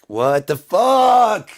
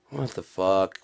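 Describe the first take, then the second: First: High, long drawn-out yell; loud, stretched howl of disbelief; screamed exasperation. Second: Said in the usual way. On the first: Acted. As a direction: scream each word slowly in outrage. Repeats it as a scream.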